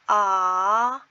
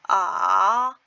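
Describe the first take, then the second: First: It is said with Mandarin second tone. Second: It is said with Mandarin third tone.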